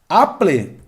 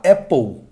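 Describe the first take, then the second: First: It is read with Portuguese sounds. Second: It is said with English sounds.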